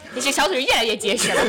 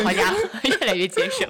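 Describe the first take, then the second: First: Laughing, 越 stressed. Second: 好家伙 laughed out, 结 stressed, rising; laughing harder. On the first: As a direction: laugh through 越来越结实. Repeated punchline, laughing. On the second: Repeated punchline, laughing more. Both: Real, not acted.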